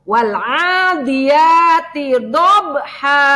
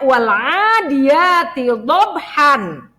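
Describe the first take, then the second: First: The last word ends with a long vowel. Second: The last word ends with an n sound. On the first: The speaker calls it right. "Tetapi wal adiyati dobha" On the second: The speaker calls it wrong. "kita tidak bagus kalau membaca itu membacanya wal adiyati dobhan, bukan begitu"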